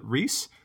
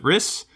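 First: The vowel sounds like 'ee'. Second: The vowel is a short 'i'. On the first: "I always called it Reese" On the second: "or is it Riss?"

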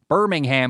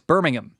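First: The last syllable is a full 'ham'. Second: The last syllable is reduced, without 'ham'. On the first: The speaker calls it wrong. "it's not Birmingham" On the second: The speaker calls it right. "it's Birmingham. I don't know why they can't say ham"

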